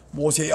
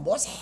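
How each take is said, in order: First: Solemn, majestic call. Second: Mock shouted call. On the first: Acted. Preacher plays God calling Moses, low and majestic. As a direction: call the name grandly, letting it roll out. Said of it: "이렇게 뭔가 장엄하게 웅장하게". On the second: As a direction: exaggerate a needless yell, held back in volume. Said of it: "막 소리를, 소리를 지르겠어요?".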